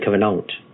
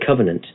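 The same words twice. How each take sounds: First: It uses an older, French- or German-influenced pronunciation. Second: It uses the ordinary modern pronunciation. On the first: "I will say covenant" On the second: "I will often not say covenant"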